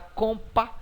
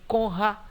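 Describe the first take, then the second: First: The r sound is dropped from the cluster. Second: The p sound is dropped from the cluster. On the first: "Você não fala compa" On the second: "nem conra"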